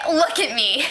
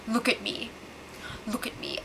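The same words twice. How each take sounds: First: Said in the usual way. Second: Soft breathy menace as a joke; hushed joking meme voice; mock dramatic whisper. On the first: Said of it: "But he did say". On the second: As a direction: whisper it, much softer, like a movie hijacker. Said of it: "So Derek goes".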